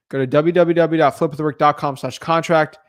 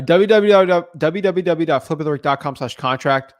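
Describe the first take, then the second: First: Said in the usual way. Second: W w w dot flip with the rick dot com slash contract read out slowly, letter by letter; slow spelled-out address. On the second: Shown as a demonstration. Host slowly repeats the contract link for viewers, careful and clear. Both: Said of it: "reads the web address twice".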